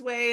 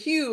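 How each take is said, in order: First: The name is pronounced like "way". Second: The name is pronounced like "hue". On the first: The speaker calls it right. "oh, my name is Way" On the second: The speaker calls it wrong. "may I speak to Hugh?"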